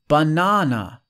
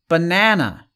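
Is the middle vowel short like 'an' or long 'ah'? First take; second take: long ah; short a. First: The middle vowel is a long 'ah' sound. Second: The middle vowel is a short 'a' sound. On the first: "But with British English, it's banana, banana. So we have the ah" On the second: "in the USA, right? American English, this is, people say banana"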